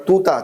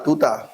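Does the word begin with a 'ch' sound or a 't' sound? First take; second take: t; t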